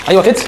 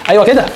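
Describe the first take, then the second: No difference in how they are said.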